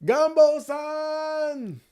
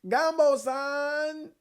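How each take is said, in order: First: "Gumbo san!" very high and slow, stretched out; high drawn-out shout. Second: "Gumbo san!" high and slow, still off; high drawn-out call. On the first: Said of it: "I didn't say that right". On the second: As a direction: pull "Gumbo san!" long at a high pitch. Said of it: "I can't get the right pitch". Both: Shown as a demonstration.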